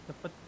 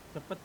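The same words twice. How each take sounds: The two takes are said the same way.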